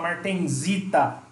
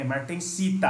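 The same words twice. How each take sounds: First: The consonant before -ita is a buzzing z sound. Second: The consonant before -ita is a hissing s sound. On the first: The speaker calls it wrong. "Tem gente que fala martensita. Tá errado" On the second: The speaker calls it right. "não vai ter som de Z"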